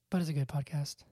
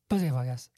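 First: The name is said at a normal speed. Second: The name is said at a fast speed.

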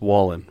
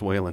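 First: The first syllable rhymes with 'wall'. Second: The first syllable rhymes with 'whale'. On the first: The speaker calls it right. "It's Wallen for everyone" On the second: The speaker calls it wrong. "That's how people mispronounce my name"

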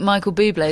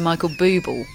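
First: The name ends in a stressed 'ay' sound. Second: The name ends in a plain 'bul' sound. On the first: The name is made to sound fancy. "trying to make himself sound cool" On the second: This is the plain form of the name. "is actually [name]"

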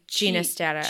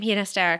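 First: The name begins with a soft J sound. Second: The name begins with a breathy H sound. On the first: This is how the composer preferred the name said. "he preferred it pronounced with the soft G as in George" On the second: This is how people commonly say the name. "that's what people pronounce it as"

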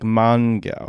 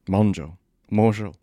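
First: The name is said like 'Mongo'. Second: The name is said like 'Mojo'. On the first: The speaker calls it wrong. "When you see it written down, you're like Mongo" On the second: The speaker calls it right. "But in fact, it's Mojo"

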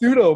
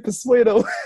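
First: It starts with a plain 'soo' sound. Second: It starts with an added 'per' syllable. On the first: The speaker calls it right. "I knew it was pseudo" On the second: The speaker calls it wrong. "for some reason I always say persuado"

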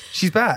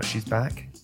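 First: It is said loudly with high energy. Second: It is said quietly with low energy. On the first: "You want me to scream it?" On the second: "That is very low energy"

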